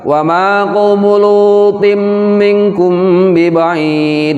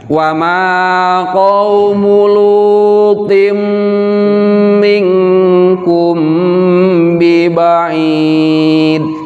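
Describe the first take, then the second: First: The phrase is recited quickly with a brief hum. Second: The phrase is recited slowly with a relaxed hum. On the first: "Kalau dibaca cepat" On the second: "Kalau kita baca pelan"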